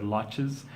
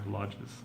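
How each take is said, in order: First: The word is said with a harder sound. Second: The word is said with a softer sound. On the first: The speaker calls it wrong. "You said lodges" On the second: The speaker calls it right. "a little bit softer"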